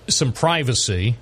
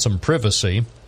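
First: It is said in an American accent. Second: It is said in a British accent.

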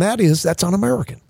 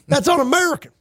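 First: It is said in a polished, sophisticated voice. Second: It is said in a dumbed-down, ignorant voice. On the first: "a reasonable person who sounds like this" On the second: "It sounds authentic when you dumb it down"

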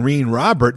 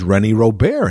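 First: The name is pronounced with English sounds. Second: The name is pronounced with French sounds. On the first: This is how a young fan read it off the card. The speaker calls it wrong. "I'm saying Rene Robert" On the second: This is how the game announcer said it. The speaker calls it right. "the guy says René Robert"

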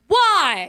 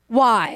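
First: It is said with stronger emphasis. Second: It is said plainly, with little emphasis.

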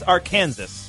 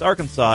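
First: The final s sound is pronounced. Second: The final s sound is silent. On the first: The speaker calls it wrong. "it looks like it's Arkansas" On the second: The speaker calls it right. "but in fact, it's Arkansas"

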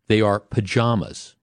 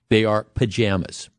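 First: It uses the East Coast and Southern pronunciation. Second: It uses the Midwestern and Western pronunciation. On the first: "on the East Coast and the South, they are pajamas" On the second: "in the Midwest and the West, they are pajamas"

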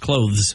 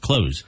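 First: It is said with a soft th sound. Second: It is said without a th sound. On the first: The speaker calls it right. "it's a soft th" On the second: The speaker calls it wrong. "A lot of people just say close"

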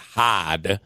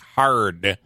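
First: The word is said with no R sound. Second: The word is said with a clear R sound. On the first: "in New England, they'll pronounce it hod" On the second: "a word that has an R, like hard"

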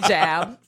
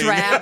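First: The word begins with a 'j' sound. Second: The word begins with a 'dr' sound. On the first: "I say jab" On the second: "instead Of drab"

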